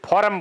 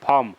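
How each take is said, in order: First: The r sound is clearly pronounced. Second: The r sound is left silent. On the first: This is how it is said locally. "हम तो मारवाड़ी में फॉर्म बोलते हैं" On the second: This is how English speakers say it. "अंग्रेज है ना वो फॉर्म बोलते हैं ... र को साइलेंट रखते हैं।"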